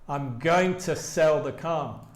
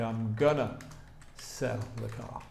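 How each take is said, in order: First: 'Going' stays, and 'to' is reduced to 'ta'. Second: 'Going to' is squeezed into one word, 'gonna'. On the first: "they are going to reduce the to, and it's going to be more like a t" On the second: "people are just going to say, I'm gonna"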